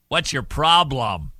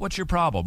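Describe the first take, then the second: First: It sounds accusing and confrontational. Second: It sounds caring and genuinely curious.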